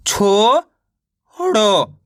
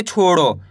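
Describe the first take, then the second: First: छोड़ो split into long chho, pause, then ro; very slow छोड़ो, one syllable at a time; sounded out in parts. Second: Said in the usual way. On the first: Shown as a demonstration. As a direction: hold the first syllable of छोड़ो rising, then drop on the second. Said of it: "इस तरीके से direct". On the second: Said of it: "तो मिलके बन जाएगा छोड़ो".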